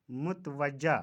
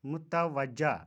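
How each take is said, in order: First: मुतवज्जा said mut-wajja; मुतवज्जा as mutwajja; mispronunciation. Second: मुतवज्जा said mu-ta-wajja; मुतवज्जा as mutawajja; correct pronunciation. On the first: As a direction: say मुतवज्जा with no vowel after t. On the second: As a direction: say मुतवज्जा with a after t. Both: Shown as a demonstration. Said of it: "का सही तलफ़ुज़".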